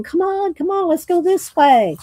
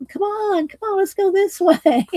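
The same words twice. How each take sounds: First: Higher little mouse, urging. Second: Much higher squeaky mouse breaking into a laugh. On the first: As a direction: hurry him along like a tiny mouse. Mice leading Leon. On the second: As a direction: overdo the tiny mouse until you giggle. Mice voiced again, laughing. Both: Acted.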